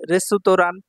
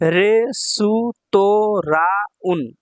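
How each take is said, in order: First: Said in the usual way. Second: রেসুতোরাউন very slow, every syllable separate. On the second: Shown as a demonstration. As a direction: spell out রেসুতোরাউন in long beats. Teacher sounds out new word.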